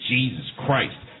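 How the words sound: It is said with an exasperated, cursing tone.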